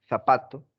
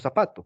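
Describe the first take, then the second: First: "zapato" starting with th as in "think"; Castilian th. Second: "zapato" starting with plain s; Latin American seseo. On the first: Teacher quoting almost all of Spain, Castilian th. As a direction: lisp the z of "zapato". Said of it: "en casi toda España". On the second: Teacher quoting all Latin America, seseo. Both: Shown as a demonstration.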